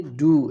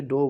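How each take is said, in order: First: ডু with a clear long "oo" vowel; correct pronunciation. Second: ডো with an "oh" vowel; the common mistake ডো, oh instead of oo; mispronunciation. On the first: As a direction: say ডু to rhyme with "too". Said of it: "এটা উচ্চারণ হবে ডু". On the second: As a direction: say ডো to rhyme with "go". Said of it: "ডো টো বলিও না". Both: Shown as a demonstration.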